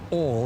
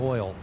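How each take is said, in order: First: It is said with a Louisiana-style pronunciation. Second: It is said with a standard American pronunciation. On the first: This is how someone else said it. "she came from Louisiana, and she like would always say oil" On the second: This is the usual way to say it. "instead of oil"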